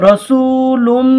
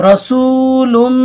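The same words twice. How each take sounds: Both takes have the same delivery.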